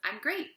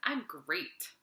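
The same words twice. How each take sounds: First: It sounds sincere and genuinely happy. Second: It sounds sarcastic, meaning the opposite.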